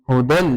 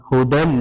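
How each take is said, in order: No difference in how they are said.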